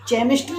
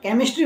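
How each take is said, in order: First: The word starts with a ch sound. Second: The word starts with a k sound. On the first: The speaker calls it wrong. "हम केमिस्ट्री नहीं बोलते" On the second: The speaker calls it right. "केमिस्ट्री बोलते हैं"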